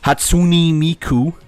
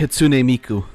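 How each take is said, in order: First: The name is said in a mangled, mocking way. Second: The name is said as a careful, close approximation. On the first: The speaker calls it wrong. "it's more correct than fucking Hatsune Miku" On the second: The speaker calls it right. "In English, even, like the way I said it right now"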